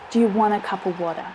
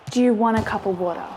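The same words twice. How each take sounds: First: The vowels are reduced to quick schwa sounds. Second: The same.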